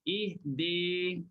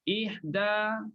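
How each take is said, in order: First: The final vowel is tilted toward e. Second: The final vowel is a plain open a.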